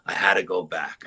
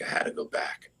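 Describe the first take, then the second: First: Said in the usual way. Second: A hushed whisper, almost to himself. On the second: Real, not acted. Telling friends of the pull back to the ridge, whispered. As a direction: breathe it out as a whisper. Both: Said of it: "I don't know why I had to go back".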